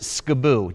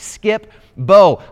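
First: The name is squeezed, without the 'p' sound. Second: The name is said fully, with the 'p' sound. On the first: The speaker calls it wrong. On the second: The speaker calls it right.

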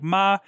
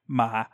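First: The pitch stays high and level. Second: The pitch starts low and falls further. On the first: "a high flat" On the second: "a low falling"

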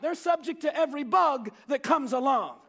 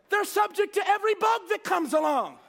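First: It is said plainly, without extra force. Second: It is said forcefully, with exclamatory emphasis.

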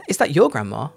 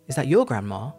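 First: The word your is stressed, in its strong form. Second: The same.

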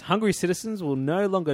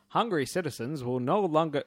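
First: It is read in the speaker's normal accent. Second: It is read in a put-on American accent. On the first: "I was just going to do it normal voice" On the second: "every time I do it, it's American"

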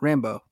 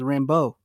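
First: The stress is on the first syllable. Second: The stress is on the second syllable. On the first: The name is not treated as French. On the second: The name is treated as French.

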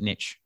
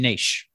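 First: The word is said in an American way. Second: The word is said in a non-American way.

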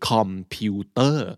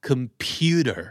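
First: Every syllable is said with a full vowel. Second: The first vowel is reduced to a schwa. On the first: The speaker calls it wrong. "มันไม่ได้ออกเต็มๆคำแบบนี้" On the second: The speaker calls it right. "แต่มันต้องออกว่า"

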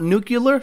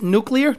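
First: The word is said as nu-cu-lar. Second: The word is said as nu-clee-ar. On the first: The speaker calls it wrong. "not nuclear, so stop saying nuclear" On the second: The speaker calls it right. "it's nuclear"

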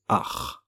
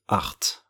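First: The final T sound is silent. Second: The final T sound is pronounced. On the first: The speaker calls it right. "We don't pronounce the T at the end. ... we say art, just art" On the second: The speaker calls it wrong. "We don't say art"

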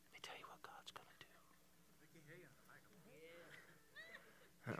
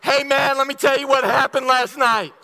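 First: It is whispered softly and closely. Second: It is spoken out loud, not whispered.

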